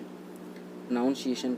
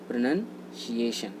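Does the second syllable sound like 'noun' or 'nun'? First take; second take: noun; nun. First: The second syllable sounds like 'noun'. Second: The second syllable sounds like 'nun'. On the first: The speaker calls it wrong. "प्रोनाउंसिएशन गलत होता है।" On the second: The speaker calls it right. "ये इसका right प्रोनंसिएशन होता है।"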